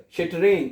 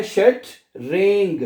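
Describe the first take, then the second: First: Said in the usual way. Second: शट रेंग in two slow parts, "sht" then "reng"; syllable-by-syllable demo. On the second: Shown as a demonstration. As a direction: break शट रेंग apart slowly, E sounded as "ay". (शट रेंग को तोड़कर धीरे, ई को ए पढ़ते हुए) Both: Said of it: "ई को ए पढ़ना है".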